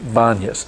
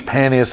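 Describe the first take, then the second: First: The name begins with a B sound. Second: The name begins with a P sound. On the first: "they make it Banyas" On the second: "They can't pronounce the P"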